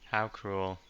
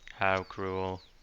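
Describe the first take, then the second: First: It is said with normal expressive intonation. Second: It is said in a flat monotone.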